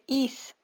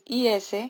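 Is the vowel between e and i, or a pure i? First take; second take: pure i; between e-i. First: The vowel is a pure Spanish i. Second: The vowel sits between Spanish e and i. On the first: The speaker calls it wrong. "pero no se dice is" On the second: The speaker calls it right. "el is en inglés es is"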